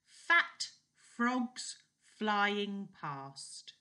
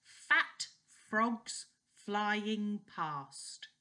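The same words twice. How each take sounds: First: "Fat" hit even higher and louder; tongue twister. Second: "fat" hit very high and loud, then falling; tongue twister. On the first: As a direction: push "Fat" harder on the retry. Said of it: "Try that one". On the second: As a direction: punch "fat" and glide down. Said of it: "So this one is". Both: Shown as a demonstration.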